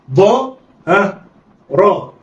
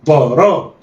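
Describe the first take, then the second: First: ضاء and راء drawn out slowly with pauses; letters read separately. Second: ضا را snatched together; blended quickly. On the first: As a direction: sound out ضاء then راء. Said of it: "يلا، اقرأ". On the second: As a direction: run ضا and را into one. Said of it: "يلا، اخطف". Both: Shown as a demonstration.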